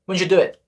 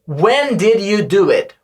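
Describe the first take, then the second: First: It is said fast and run together. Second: It is said slowly and fully.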